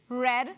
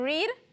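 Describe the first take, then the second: First: The vowel is short, like "red". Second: The vowel is long, like "reed". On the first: It is the past tense form. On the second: It is the present or infinitive form.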